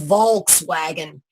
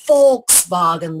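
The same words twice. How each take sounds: First: The word begins with a V sound. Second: The word begins with an F sound. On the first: "In America, they call it the Volkswagen" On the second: "the V pronounced as an F"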